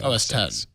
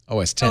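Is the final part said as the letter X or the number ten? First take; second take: letter X; number ten. First: The last part is said as the letter X. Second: The last part is said as the number ten. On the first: The speaker calls it wrong. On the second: The speaker calls it right.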